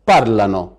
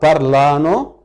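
First: The stress is on the first syllable. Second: The stress is on the second syllable. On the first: The speaker calls it right. "لازم أقول بارلانو" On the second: The speaker calls it wrong. "من الخطأ نطقها بارلانو"

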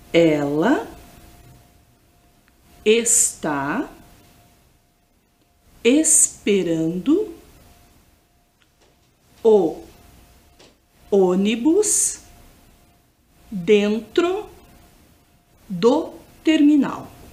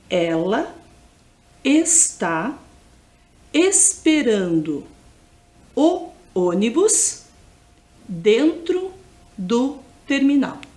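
First: The sentence is spoken very slowly. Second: The sentence is spoken at normal speed. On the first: "bem devagar" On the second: "Vou repetir"

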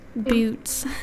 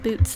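First: The word is pronounced in an ordinary way. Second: The word is pronounced in an odd way. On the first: The speaker calls it right. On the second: The speaker calls it wrong.

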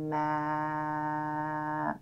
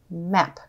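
First: The word is stretched out slowly, sound by sound. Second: The word is said quickly as one smooth unit. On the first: "Tap and stretch again with me" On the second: "Let's say it fast like a word"

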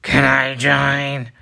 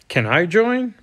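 First: It is said in a deep Venom voice. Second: It is said in a normal voice.

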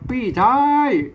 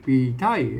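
First: The first syllable is said with the tho tone. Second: The first syllable is said with the ek tone. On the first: This is the Tai Yuan way of saying it. "ปี้นะเสียงโทนะครับปี้ไทยนะครับเป็นอันไตยวน" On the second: This is the Tai Lue and Tai Yong way of saying it. "อันปีเนี่ยเสียงโทเป็นออกเป็นเสียงเอกนะครับ"

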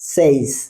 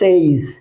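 First: The vowel is a short plain e sound. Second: The vowel glides like the vowel in 'say'. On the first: The speaker calls it right. "এর উচ্চারণ হবে সেইস ... ইটা কিন্তু থাকছে না" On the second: The speaker calls it wrong. "তার সাথে মিল রেখে আমরা বলি সেইস"

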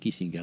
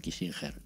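First: The g is said as a hard g sound. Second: The g is said as a soft sound. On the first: The speaker calls it right. "se dice Kissinger" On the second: The speaker calls it wrong. "no Kissinger"

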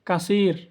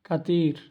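First: The middle consonant is an s sound. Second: The middle consonant is a t sound. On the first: The speaker calls it right. "আরবরা বলে কাসির" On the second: The speaker calls it wrong. "আমরা বলি কাতির, একদম ভুল"

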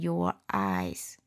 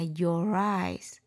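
First: The two words are said separately without linking. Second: The two words are linked together quickly. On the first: "nếu các bạn đọc không quen thì cứ nói" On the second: "đọc nhanh thì mình đọc nối lại là"

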